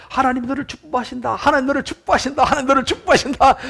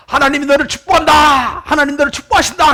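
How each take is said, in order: First: High, repeated imitated echo, not shouted; echo coming back. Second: Loud, high acted boy's call; shouted blessing. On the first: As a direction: send it back like answering hills. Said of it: "그랬더니 좀 있다 보니까". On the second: Boy shouts a blessing from the hill, loud and high. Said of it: "다시 이야기합니다".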